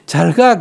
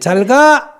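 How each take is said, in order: First: The ending falls, sounding lingering and reluctant. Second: The ending rises crisply and decisively.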